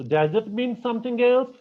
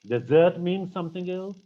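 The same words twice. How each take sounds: First: "desert" said DEZ-ert, first syllable stressed. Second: "desert" said de-ZERT, second syllable stressed. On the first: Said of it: "this whole change in the meaning". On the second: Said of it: "because of the placement". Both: Shown as a demonstration.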